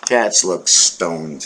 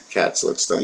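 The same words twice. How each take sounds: First: Slow, low, deadpan observation. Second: A conspiratorial whisper aside. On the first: To viewers about the cat, slow low deadpan. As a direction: drop the voice low and drag it out slowly. Repeats line, then whispers it. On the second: To viewers about the cat, whispered repeat. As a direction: whisper it, barely voiced. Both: Shown as a demonstration.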